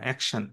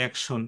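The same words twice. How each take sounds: First: অ্যাকশন ending in an open "shan"; correct pronunciation. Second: অ্যাকশন ending in a rounded "shon"; common wrong pronunciation. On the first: Teacher corrects the common error, "shan" ending in অ্যাকশন. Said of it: "না, অ্যাকশন". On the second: Teacher mimics what many say, "shon" ending in অ্যাকশন. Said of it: "অনেকে আমরা বলি অ্যাকশন". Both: Shown as a demonstration.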